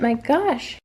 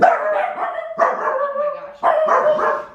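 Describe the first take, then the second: First: Said in the usual way. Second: Exasperated. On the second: Real, not acted. Bloopers, someone ruins take.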